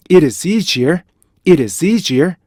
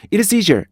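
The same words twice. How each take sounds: First: Rhythmic drill with a beat on 'easier'; drawn-out, connected 'it is easier'; measured linking. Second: 'it is easier' compressed into one run; no rhythm gap after 'it'; quick joined version. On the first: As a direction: link 'it is', stretch 'easier'. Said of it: "이렇게 가셔야 돼요". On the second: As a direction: hurry 'it is' into 'easier'. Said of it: "이렇게 한단 말이에요". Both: Shown as a demonstration.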